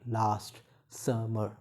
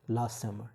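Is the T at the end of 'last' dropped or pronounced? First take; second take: pronounced; dropped. First: The T at the end of last is pronounced. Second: The T at the end of last is dropped. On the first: The speaker calls it wrong. "not last summer" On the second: The speaker calls it right. "Here the T is not pronounced, like we say last summer"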